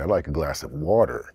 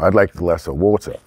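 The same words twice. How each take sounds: First: It has a Canadian accent with strong R sounds. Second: It has a British accent with soft R sounds. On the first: "a Canadian would say, ... Roll the R's, a lot of R's" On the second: "was what a British person would say"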